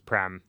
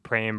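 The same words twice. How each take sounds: First: The vowel does not rhyme with frame. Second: The vowel rhymes with the word frame. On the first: The speaker calls it wrong. "versus Prem" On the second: The speaker calls it right. "pronounced Prem"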